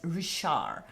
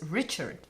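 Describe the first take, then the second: First: The name is said the Belgian way. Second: The name is said the English way.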